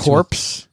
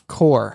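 First: The word ends with an audible 'ps' sound. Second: The word ends with no 'ps' sound. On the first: The speaker calls it wrong. "nobody pronounces it corpse" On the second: The speaker calls it right. "It's pronounced core"

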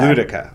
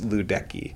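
First: The name ends with a 'kah' sound. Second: The name ends with a 'kee' sound. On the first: The speaker calls it right. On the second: The speaker calls it wrong.

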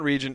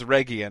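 First: The g is soft, like a j. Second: The g is hard, as in go. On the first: The speaker calls it wrong. "It's not region" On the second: The speaker calls it right. "It is a hard G"

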